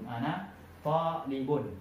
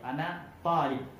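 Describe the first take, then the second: First: The last word ends with an -un sound. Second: The last word ends on a bare consonant. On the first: The speaker calls it right. "harakat akhirnya dhamma" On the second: The speaker calls it wrong. "kita jazam kata-kata talib"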